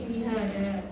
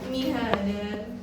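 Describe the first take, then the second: First: The word ends with a long a vowel. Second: The word ends with an n sound.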